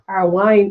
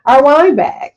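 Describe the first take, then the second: First: Said in the usual way. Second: "Our wine bag" said louder and higher, landing on "wine"; emphatic correction. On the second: Real, not acted. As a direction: punch "wine" in "Our wine bag" with a falling end. Renames the bag, tries again.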